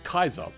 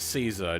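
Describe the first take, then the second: First: The word begins with a hard K sound. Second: The word begins with a soft S sound.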